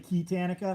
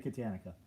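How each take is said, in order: First: The first syllable is said as 'key'. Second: The first syllable is not said as 'key'. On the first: "The commercial pronounces them key" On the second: "I'll continue to say Katanica"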